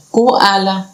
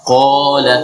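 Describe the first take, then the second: First: Qala misread as "koala" with a glide; wrong reading koala. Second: Proper Arabic "qala"; correct qala. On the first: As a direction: say "koala" the wrong way, as a learner might. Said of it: "nggak dibaca koala". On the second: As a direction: say "qala" from the back of the throat. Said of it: "tapi dibaca". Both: Shown as a demonstration.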